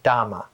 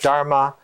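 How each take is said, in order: First: The word is said without an r sound. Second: The word is said with an r sound. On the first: This is the southern form of the word. "the southern pronunciation ... they called it Dhamma" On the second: This is the northern form of the word. "The Magadhi accent of North India called it Dharma"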